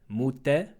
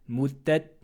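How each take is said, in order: The two takes are said the same way.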